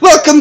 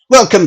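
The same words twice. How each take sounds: First: It is said in a put-on Asian accent. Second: It is said in a Yorkshire accent. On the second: "a Yorkshire accent, ... Like I like that accent"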